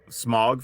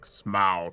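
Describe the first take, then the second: First: The vowel sounds like the one in 'fog'. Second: The vowel sounds like the one in 'cow'. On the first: This is how the speaker said it for years. "I actually pronounced that smog for a long time" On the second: This is how the movie ads said it. "till I heard the ads for the movies, and then it was like Smaug"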